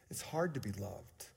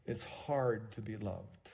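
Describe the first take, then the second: First: Softer hushed repeat of the line; hushed echo. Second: Slow and soft, weighing each word. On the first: Pastor repeating to the congregation, hushed. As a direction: echo it almost to yourself. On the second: Pastor telling the congregation, slow and soft. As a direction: let it sink in slowly. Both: Shown as a demonstration.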